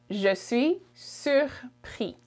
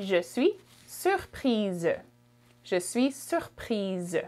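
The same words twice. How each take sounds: First: "surpris" slowly, ending on the vowel, no z; masculine French form. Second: French "surprise" ending in a voiced z; final z sound. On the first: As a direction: leave the final s of "surpris" silent. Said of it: "that's for a boy". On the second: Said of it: "Z sound at the end". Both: Shown as a demonstration.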